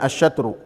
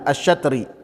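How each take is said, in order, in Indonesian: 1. Kata itu berakhir dengan vokal u. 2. Kata itu berakhir dengan vokal i. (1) "Bisa juga dibacanya asyatru" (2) "bisa dibacanya asyatri"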